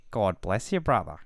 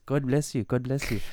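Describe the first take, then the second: First: Retold religious stranger. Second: Quick-fire imitation of a blessing returned; retold polite reply. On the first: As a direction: play a stranger offering a blessing. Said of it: "He just goes". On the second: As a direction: play the other man blessing back. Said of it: "And the guy just goes".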